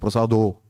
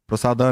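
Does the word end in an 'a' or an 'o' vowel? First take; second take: o; a. First: The word ends with an 'o' vowel. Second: The word ends with an 'a' vowel. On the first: The speaker calls it right. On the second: The speaker calls it wrong. "प्रसादा नहीं है"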